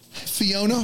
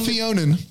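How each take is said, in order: First: The name ends on a plain vowel sound. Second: The name ends with an added n sound. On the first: The speaker calls it right. "Fiona Furman" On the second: The speaker calls it wrong. "Not Fionan"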